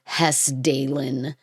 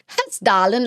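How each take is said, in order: First: It is said with an American accent. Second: It is said with a Swedish-sounding accent. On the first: "Americans would probably pronounce it as like Hessdalen" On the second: "it sounds like like a Swedish word"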